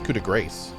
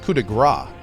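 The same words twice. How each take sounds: First: The final S sound of grace is pronounced. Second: The final S sound of grace is silent. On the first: The speaker calls it wrong. "I don't think it's coup de grace" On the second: The speaker calls it right. "I think it's coup de grace"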